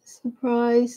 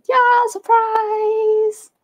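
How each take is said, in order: First: Said in the usual way. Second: High, slow, stretched-out "surprise"; playful sing-song surprise. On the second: Acted. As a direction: draw out "Yeah, surprise" high and slow, teasing the viewers. Announcing a surprise live talk.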